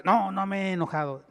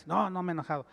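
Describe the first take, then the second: First: Louder, heated denial; denying anger a little too loudly; raised voice. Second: Said in the usual way. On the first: Shown as a demonstration. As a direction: raise the voice while denying you're angry. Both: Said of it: "ya está levantando la voz".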